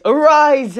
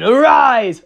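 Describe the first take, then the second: First: Higher, louder, stretched final command; climactic summoning. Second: Slow, louder command to rise; dark summoning. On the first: Noir Rabbit finishing the summoning, in a higher, louder climactic voice. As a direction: push the spell to its peak. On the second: Noir Rabbit raising his minion, in a louder summoning voice. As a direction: intone it like a spell. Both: Acted. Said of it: "So, Noir Rabbit's like".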